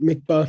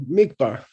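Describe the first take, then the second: First: Both syllables carry equal stress. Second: The stress falls on the first syllable. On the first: It is the object of focus. "If you say both syllables with equal accent" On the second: It is the verb to focus on something. "if you accent the first syllable"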